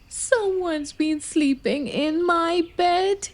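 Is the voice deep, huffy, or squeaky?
squeaky. It is said in a high, squeaky voice.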